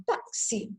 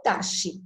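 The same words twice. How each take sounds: First: Táxi said with a ks sound; the way táxi is really said; táxi with a clear ks; right pronunciation. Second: Taxi said without the ks sound; the way taxi is not said; wrong pronunciation. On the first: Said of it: "eu falo táxi". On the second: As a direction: taxi as a mistaken reading. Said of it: "eu não falo taxi". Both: Shown as a demonstration.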